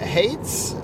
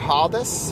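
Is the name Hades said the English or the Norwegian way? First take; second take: English; Norwegian. First: The name is given an English pronunciation. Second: The name is given a Norwegian pronunciation.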